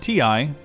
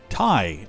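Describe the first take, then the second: First: It is said as two separate letters. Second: It is said as one word, rhyming with tie. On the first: This is how users have long said it. "We've called them a T I for years" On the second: This is how the product's presenter said it. "as they were calling it, as in like you tie a tie"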